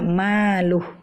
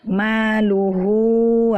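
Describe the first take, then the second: First: The word ends on a bare h sound. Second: The word ends with a long final vowel. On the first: The reading stops on this word. "kita ingin berhenti pada maluhu, ya. Jadi kita baca maluh" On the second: The reading continues without stopping. "ha dhamir ini adalah dibaca panjang ketika kita lanjut"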